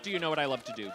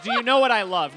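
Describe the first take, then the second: First: Said in the usual way. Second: Louder, laughing "Do you know what I love?"; laughing correction. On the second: Shown as a demonstration.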